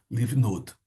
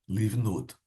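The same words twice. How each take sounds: The two takes are said the same way.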